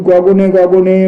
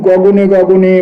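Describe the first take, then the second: The two takes are said the same way.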